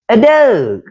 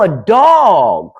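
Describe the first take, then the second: First: The word is said in a Baltimore accent. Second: The word is said in a plain accent.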